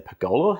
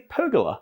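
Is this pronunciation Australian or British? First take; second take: Australian; British. First: It is said the Australian way. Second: It is said the British way. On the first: "how we say in Australia" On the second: "how we say in British"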